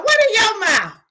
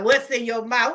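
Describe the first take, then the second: First: High, loud mocking echo. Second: Said in the usual way. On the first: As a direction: throw the question back mockingly.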